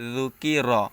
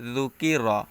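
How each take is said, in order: The two takes are said the same way.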